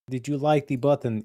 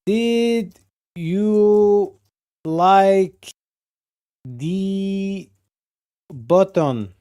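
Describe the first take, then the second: First: Said in the usual way. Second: Slow, high, stretched question; drawn-out poll voice. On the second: Pretend. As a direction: stretch each word like an announcer. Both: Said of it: "Do a poll".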